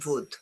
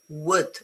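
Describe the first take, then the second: First: The word begins with a buzzing V sound. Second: The word begins with a rounded W sound. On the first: The speaker calls it wrong. "It's not wood" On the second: The speaker calls it right. "this is wood"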